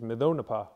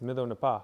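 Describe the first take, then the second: First: The stress falls on the third-last syllable. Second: The stress falls on the last syllable. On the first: The two parts are joined into one word. The speaker calls it wrong. "your stress goes to the third last syllable, which is maison n'est pas, which doesn't make sense" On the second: The two parts keep their own stress patterns. The speaker calls it right. "It's maison n'est pas"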